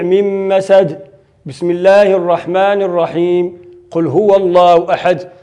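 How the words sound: It pauses before and after the basmala. The end of the surah, the basmala and the next surah are all separated. "قطع الجميع"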